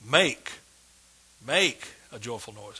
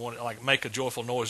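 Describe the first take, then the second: First: The word make is strongly stressed. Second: No word is given special stress.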